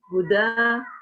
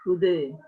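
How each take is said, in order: First: The final vowel is an open, clear a. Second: The final vowel is raised toward e. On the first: "bil fathi" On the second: "bil taklil"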